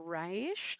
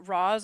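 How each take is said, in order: First: The name is said like 'Raish'. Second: The name is said like 'Roz'. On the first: "I either say Roz or Raish" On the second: "I either say Roz or Raish"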